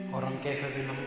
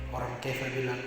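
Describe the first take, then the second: Both takes have the same delivery.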